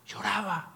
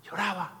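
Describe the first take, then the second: No difference in how they are said.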